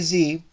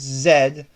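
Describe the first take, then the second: First: The letter is said the American way. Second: The letter is said the Canadian way. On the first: The speaker calls it wrong. "you don't say Z" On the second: The speaker calls it right. "it's Z. You know, it's Canadian"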